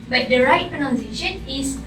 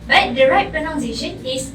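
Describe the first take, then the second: The two takes are said the same way.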